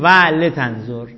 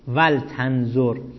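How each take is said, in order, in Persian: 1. ل با یک کسرهٔ کوتاه همراه است. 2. بعد از ل هیچ مصوتی نیست. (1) "نمیتونیم بگیم ولتنظر، نه" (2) "اینجا لام واجب است که وقتی فا و وا اومدن واجب است که چی؟ ساکن بشود"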